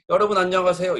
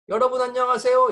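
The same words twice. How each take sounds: First: It is said at a lower pitch. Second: It is said at a high sol pitch.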